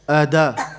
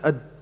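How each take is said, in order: First: The final d is followed by a full vowel. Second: The final d is clipped with no echo. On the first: "Make it like a fatha. Ada. No, that's too much" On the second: "you can't hear anything"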